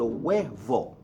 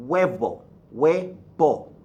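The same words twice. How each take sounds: First: Huevo said "WEH-vo" with a v; V as English V. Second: Huevo said "WEH-bo", lips closed on b. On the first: Teacher contrasting the English influence, huevo with v. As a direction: huevo with teeth on lip for the v. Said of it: "as opposed to huevo". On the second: Teacher modelling the V, huevo with a b sound. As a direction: huevo in two firm beats, "weh-BO" with a b. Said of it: "V gives you a B sound". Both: Shown as a demonstration.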